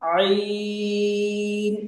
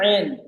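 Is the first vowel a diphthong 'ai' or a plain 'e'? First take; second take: ai; e. First: The first vowel glides from 'a' to 'i'. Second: The first vowel is a single plain 'e'. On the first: The speaker calls it right. "अरबी में जो आवाज है वो आई" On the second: The speaker calls it wrong. "यहाँ गलती करते हैं पढ़ने वाले, इसको पढ़ते हैं ऐन"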